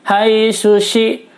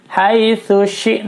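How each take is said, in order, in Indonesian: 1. Kedua konsonan diucapkan sebagai bunyi 'sh'. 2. Konsonan pertama adalah bunyi 'th', lidah di antara gigi. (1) "seringnya orang membaca hai sushi, dua-duanya shin kalau begitu" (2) "ujung lidah terletak di antara gigi atas dan gigi bawah"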